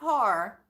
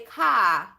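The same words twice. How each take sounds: First: It is said in a general American accent. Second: It is said in a Boston accent.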